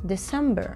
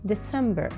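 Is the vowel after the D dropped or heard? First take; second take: dropped; dropped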